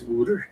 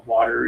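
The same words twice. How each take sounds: First: "wooter" with an oo for the first vowel; mock Philadelphia accent on "wooter". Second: Said in the usual way. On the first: Shown as a demonstration. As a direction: say "water" as "wooter", Philly style. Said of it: "water is wooter". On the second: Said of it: "the Philadelphia accent is particularly strange".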